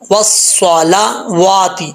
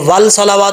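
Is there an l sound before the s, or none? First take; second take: none; l sound. First: The s is doubled with no l sound. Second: An l sound is heard before the s. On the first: The speaker calls it right. "वाव को साथ से मिलाना है" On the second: The speaker calls it wrong. "इसको वल सलावात नहीं पढ़ना"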